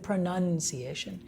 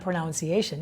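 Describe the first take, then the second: First: The second syllable sounds like 'nun'. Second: The second syllable sounds like 'noun'. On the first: The speaker calls it right. "itu pronunciation. Kalau mau lihat, none" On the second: The speaker calls it wrong. "Tapi itu bukan pronunciation"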